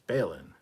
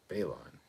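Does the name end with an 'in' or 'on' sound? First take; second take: in; on. First: The name ends with an 'in' sound. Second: The name ends with an 'on' sound. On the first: The speaker calls it right. "It's pronounced like Balin" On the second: The speaker calls it wrong. "not Balon"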